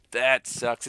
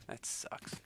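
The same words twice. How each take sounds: First: Said in the usual way. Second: Whispered. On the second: Real, not acted. Repeats it, first under breath.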